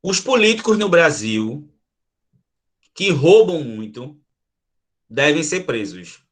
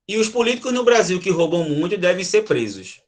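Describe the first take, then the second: First: "Os políticos no Brasil, que roubam muito, devem ser presos" with a pause at each comma; "que roubam muito" set apart by pauses on both sides. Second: "E os políticos no Brasil que roubam muito devem ser presos" run together with no pause; no pauses, one breath. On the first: Teacher shows the commas to the class with pauses. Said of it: "Vê se vocês, pela minha fala, vocês conseguem diferenciar".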